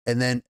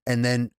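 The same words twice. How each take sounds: The two takes are said the same way.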